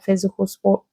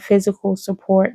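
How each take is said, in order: First: "sport" said for support, dropping the "up"; quick accidental "sport" instead of support; slip of the tongue. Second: "support" said fully, with its "up"; plain self-correction, "support" said properly; corrected word. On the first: Psychic misspeaks to her viewer, a plain slip of the tongue. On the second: Psychic corrects herself to her viewer, saying "support" plainly. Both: Real, not acted. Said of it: "Sport, I was about to say".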